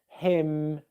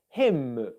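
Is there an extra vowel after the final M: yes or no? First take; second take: no; yes. First: The word ends cleanly on the M sound. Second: An extra vowel is added after the M. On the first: The speaker calls it right. "nasal sounds at the end of words" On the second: The speaker calls it wrong. "that you're not saying something like"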